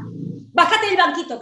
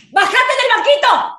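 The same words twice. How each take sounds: First: Said in the usual way. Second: Higher, louder order; angry shout. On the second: Acted. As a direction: bark ¡Bájate del banquito! at full force. Repeats order, now shouting.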